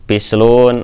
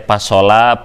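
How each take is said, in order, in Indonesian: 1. Diucapkan dengan vokal i, u. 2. Diucapkan dengan vokal a, o, a.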